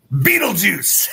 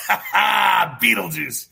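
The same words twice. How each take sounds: First: Said in the usual way. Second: Drawn-out laughing call. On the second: Real, not acted. Host mocking the mayor to viewers, laughing slow call. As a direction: stretch Beetlejuice out very slowly through a laugh, half shouted. Laughing, stretched repeat of the nickname.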